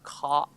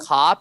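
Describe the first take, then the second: First: The vowel is stretched out, Boston-style. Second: The vowel is short and plain. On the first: "you gotta change your O's to A W's as well" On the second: "instead of like"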